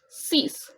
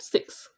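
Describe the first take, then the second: First: The word ends with a plain s sound. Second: The word ends with a ks sound. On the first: The speaker calls it right. "the pronunciation is six" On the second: The speaker calls it wrong. "not six"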